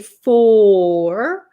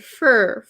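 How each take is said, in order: First: The word is said with a full vowel. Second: The word is said with a reduced vowel. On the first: The speaker calls it wrong. "We don't usually say for" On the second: The speaker calls it right. "We say fur"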